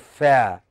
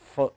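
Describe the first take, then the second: First: The vowel is full and strong. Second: The vowel is weak and short. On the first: The speaker calls it wrong. "We won't say fa" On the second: The speaker calls it right. "Non-stressed syllable would become very weak"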